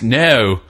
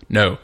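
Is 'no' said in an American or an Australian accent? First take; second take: Australian; American. First: A drawn-out vowel gliding through several qualities. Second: A single plain long O vowel. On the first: "To them, it's no. ... it's like four different vowels" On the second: "to us, it's just no, like a big O"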